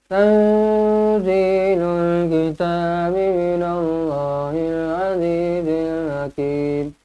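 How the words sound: It is recited with a nasal voice.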